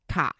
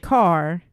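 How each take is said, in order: First: It is said with a Boston accent, no r. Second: It is said with a Midwestern accent, with r.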